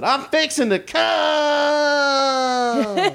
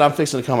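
First: Put-on high, slow, drawn-out Southern accent through laughter. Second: A hint of boyfriend's Southern twang; light Southern accent. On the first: Telling John Waters the joke, in a laughing Southern accent. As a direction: stretch it out in a Southern twang, laughing. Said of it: "I love a Southern accent on a guy". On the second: Retelling the first boyfriend's words, lightly Southern. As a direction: quote him with a light Southern lilt. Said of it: "So when he said".

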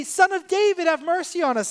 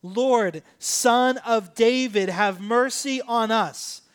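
First: High, quick cry for mercy; acted plea. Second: Slow, drawn-out loud call; louder retold cry. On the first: Blind men begging Jesus for mercy, high acted plea. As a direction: call out as a retold beggar, pitched well up. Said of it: "So they say". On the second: Blind men refusing to be hushed, slow louder cry. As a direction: call it out emphatically, stretching each word. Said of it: "They said it even louder".

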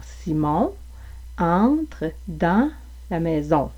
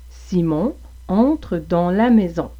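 First: Slow Quebec French demo, open "an"; word-by-word Quebec French with "an" distinct from "on"; measured Quebec French nasal vowels; Quebec French accent. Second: Slow demo of a European French accent; deliberate European French nasal vowels. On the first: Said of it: "En français québécois, vous auriez plus de distinction". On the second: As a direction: imitate European French, "an" sounding close to "on". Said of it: "avec une prononciation en français européen". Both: Shown as a demonstration.

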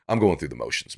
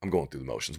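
First: Said in the usual way. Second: Softer, trailing repeat with a rising end; quiet resigned repeat. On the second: Retold or imitated. Quitter repeating it to himself, quiet and resigned. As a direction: let it fade out, half to yourself.

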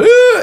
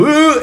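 First: Very high, loud mock "ooh"; imitated drowning girl. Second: High, loud mock "ooh"; imitated drowning man. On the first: Surfer shows the girl going under, imitated girl's cry. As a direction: mimic a girl's piercing wail as she sinks. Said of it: "I hear the girl go". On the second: Surfer shows the tourist going under, imitated man's cry. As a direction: mimic a man's wail as he sinks. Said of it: "I just see the guy go".

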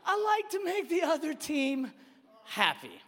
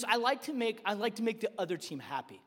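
First: Mocking mimicry. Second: Imitating a sheepish child; meek child's confession. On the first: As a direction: parrot the excuse back mockingly. Dad mockingly repeats son's excuse. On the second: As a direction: own up quietly, trailing downward. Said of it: "And he goes".

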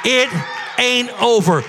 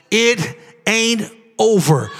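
First: Shouted declaration; shouted prophecy. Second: Slow, measured declaration; slow prophecy. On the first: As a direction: call it out to the whole church. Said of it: "Who can receive that three-word prophecy". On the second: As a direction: lay it down slowly like a prophecy. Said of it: "Let me prophesy over you this morning". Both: Shown as a demonstration.

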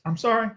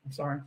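First: A quick, lifted fake sorry with a rise on sorry; mock apology. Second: Mumbled sorry, barely heard; quiet sorry. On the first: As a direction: toss off a fake apology that rises at the end. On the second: Pretend. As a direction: drop it to a quiet afterthought.

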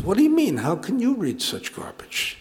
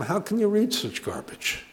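First: High "What do you mean?", then "you" stressed; indignant retort, stress on YOU. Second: "read" carries the main stress, then falling softly; softly reproachful, leaning on the word "read"; mild reproach, stress on READ. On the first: Chaim turns the question back on Moshe, indignantly stressing "you". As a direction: throw it back with the weight on "you". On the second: Moshe questions Chaim's newspaper, stressing "read" in mild reproach. Joke friend challenges the other's reading. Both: Acted.

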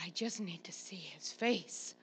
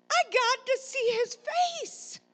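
First: Soft, low, near-whispered appeal; hushed plea. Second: High, loud, slow desperate plea; retold yell. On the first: Retold or imitated. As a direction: drop to a small, spent murmur. Winded grandma pleading softly with son. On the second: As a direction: holler it out, stretching each word. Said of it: "I yelled in the mo".

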